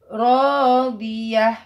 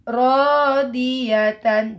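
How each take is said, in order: First: The word ends in a soft h sound. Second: The word ends with a full tan syllable. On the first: The reader stops on this word. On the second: The reading continues without stopping.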